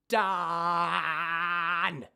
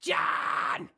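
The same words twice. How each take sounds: First: Loud drawn-out scream on done; twang scream demo. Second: Loud unvoiced scream on done; short scream demo. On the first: Coach showing twang on a scream. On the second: Coach showing the student a short scream. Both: Shown as a demonstration. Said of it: "I can still do ah, done".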